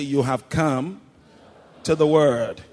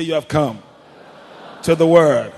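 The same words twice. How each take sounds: First: Raised, emphatic declaration; firm call. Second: Much louder, full preacher's shout; preach it loud. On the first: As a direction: declare it firmly to your neighbor. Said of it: "Be a good preacher". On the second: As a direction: belt it out like a preacher. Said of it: "Come on, preach it. Be a good preacher". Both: Shown as a demonstration.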